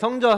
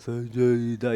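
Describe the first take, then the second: First: It is said in a strong, confident voice. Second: It is said in a weak, hoarse voice.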